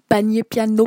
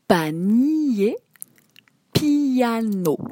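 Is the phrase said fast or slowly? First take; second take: fast; slowly. First: The phrase is said very quickly. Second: The phrase is said slowly and carefully.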